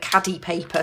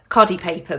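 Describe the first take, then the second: First: The first syllable sounds like 'cad'. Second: The first syllable sounds like 'car'. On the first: This is how other people say it. "I've heard other people call it" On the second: This is how the speaker usually says it. "I always pronounce this"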